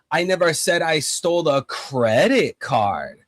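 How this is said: The words credit card carry the main stress. Something else may have been taken instead. "if I um emphasize um credit card"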